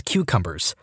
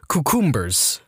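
First: Said in the usual way. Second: Cucumbers said the way the parents did, set against the usual way; family's pronunciation. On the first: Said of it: "they pronounced it cucumbers". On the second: Retold or imitated. Telling listeners how parents pronounced cucumbers, imitating it. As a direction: imitate the family saying cucumbers their odd way. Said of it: "how to pronounce cucumbers".

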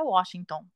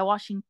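First: Washington said with an O in the last syllable; wrong O ending. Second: Washington with an A sound in the last syllable, not O; corrected A ending. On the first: Student's mistake quoted by her boyfriend, Washington with O ending. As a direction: say Washington ending in an O sound, as spelt. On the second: Boyfriend correcting her pronunciation, Washington ending in A sound. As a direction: land Washington on an open "ã" ending. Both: Retold or imitated. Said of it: "você fala com som de A".

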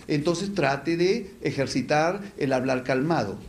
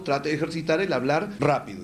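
First: Slow, even demo of speaking calmly; unhurried, deliberate delivery; calm speech. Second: Said in the usual way. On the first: Shown as a demonstration. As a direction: stretch out "calmado" as if showing calm talk. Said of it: "Si habla demasiado rápido". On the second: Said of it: "Y si habla calmado".

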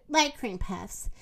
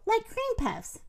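First: Said in the usual way. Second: High, wistful lilt; a touch of sadness, lightly voiced; sad. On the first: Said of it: "said Moo". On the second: A narrator's reading. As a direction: say it with mild, wistful regret. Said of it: "said M-, Minnie sadly".

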